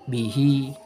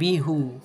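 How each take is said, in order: First: The word ends with an 'i' vowel. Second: The word ends with a 'u' vowel. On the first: The speaker calls it right. "dibaca kasroh juga. Bihi bukan bihu" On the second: The speaker calls it wrong. "bukan bihu"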